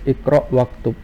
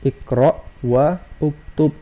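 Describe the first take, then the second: First: The wa runs straight into ktub. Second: The u of uktub is pronounced separately. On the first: The speaker calls it right. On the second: The speaker calls it wrong.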